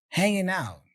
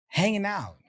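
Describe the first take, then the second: Both takes have the same delivery.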